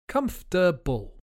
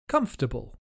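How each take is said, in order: First: The word is said slowly. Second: The word is said quickly. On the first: "Let's hear it again slowly" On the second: "and then more quickly"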